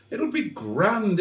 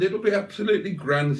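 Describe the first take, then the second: First: Slow high soothing reassurance; reassuring. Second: Quick high chirpy reassurance; brisk reassurance. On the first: To nervous Simone about driving, soothing reassurance. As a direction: talk her down gently, drawn out. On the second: To Simone again, quick upbeat reassurance. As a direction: rattle it off brightly. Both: Acted.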